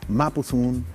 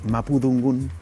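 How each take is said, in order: First: The second word starts without a d sound. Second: The second word starts with a d sound. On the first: "en la zona de Temuco es Mapu Zungun" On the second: "En Cañete ocupan más como la D"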